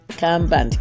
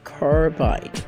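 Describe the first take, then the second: First: The word is said in a local market form. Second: The word is said in its standard form. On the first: This is how market sellers in the West say it. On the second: This is the chemical's proper name.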